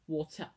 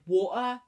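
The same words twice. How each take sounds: First: The T sound in the middle is pronounced. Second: The T sound in the middle is dropped. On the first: The speaker calls it right. "There's a T in water" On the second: The speaker calls it wrong. "People say water, and I used to"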